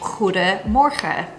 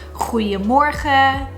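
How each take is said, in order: First: The middle consonant is a clear D sound. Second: The middle consonant is a soft J sound. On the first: "when you're saying goedemorgen" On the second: "That D sound in the middle of goede actually becomes a J sound"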